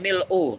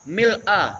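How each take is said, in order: First: The word ends with a 'u' vowel. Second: The word ends with an 'a' vowel. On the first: This is the form found in another narration. "Dalam riwayat yang lain" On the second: This is the well-known form, describing a state. "Kalau untuk yang terkenal pakai fathah"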